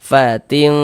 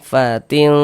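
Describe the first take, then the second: Both takes have the same delivery.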